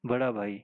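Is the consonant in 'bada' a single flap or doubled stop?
single flap. The middle consonant is a single flap. "जैसे बड़ा भाई"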